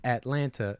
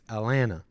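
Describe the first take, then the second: First: The middle t is clearly pronounced. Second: The middle t is dropped.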